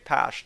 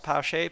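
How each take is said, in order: First: The name ends on a plain 'sh' sound. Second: The name ends with an extra vowel sound. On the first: The speaker calls it right. "just Pash" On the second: The speaker calls it wrong. "not Pache"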